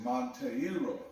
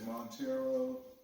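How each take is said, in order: First: The E and I are kept as separate sounds. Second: The E and I blend into one vowel. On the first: This is how the father said his own name. "he would say Monteiro, more Portuguese" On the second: This is how the speaker himself says the name. "like I would say, Montero. You know, I guess conflate the E and I"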